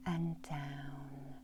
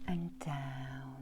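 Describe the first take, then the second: No difference in how they are said.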